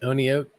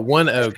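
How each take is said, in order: First: The name is said with three syllables. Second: The name is said with two syllables. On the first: The speaker calls it wrong. "So it's not Oni oak" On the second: The speaker calls it right. "one oak is the pronunciation"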